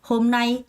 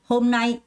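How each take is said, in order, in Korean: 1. 첫 음절은 약하고, 두 번째 음절에 강세를 줘요. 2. 첫 음절은 약하고, 두 번째 음절에 강세를 줘요.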